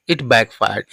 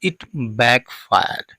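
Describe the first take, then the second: First: Said in the usual way. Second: It backfired drawn out word by word, very slowly; slow dictation of "it backfired"; very slow teaching read. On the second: Shown as a demonstration. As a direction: spell out "it backfired" slowly for learners. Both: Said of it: "means English में कहेंगे इसको".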